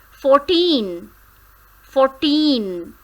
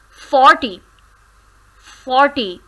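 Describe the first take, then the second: First: Put-on fourteen with teen stressed; fourteen, hit teen. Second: Forty, loud on for; Forty, punch for; stress on for. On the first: Teacher modelling fourteen, teen stressed. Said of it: "the stress is on the second syllable". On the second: Teacher contrasting forty with fourteen, for stressed. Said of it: "Stress is on for". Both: Shown as a demonstration.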